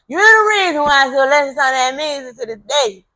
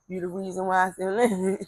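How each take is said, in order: First: Higher and louder, laughing through the words. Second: Said in the usual way. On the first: Real, not acted. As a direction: laugh warmly as you say "You the reason". Thanking brother's mother for music.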